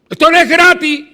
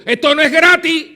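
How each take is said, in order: First: Even louder, higher shout of the same line; shouted repeat. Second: Loud, high, hammered statement; forceful declaration. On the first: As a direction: bellow it back at them, climaxing. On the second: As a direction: drive the point home hard. Preacher hammers point. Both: Acted.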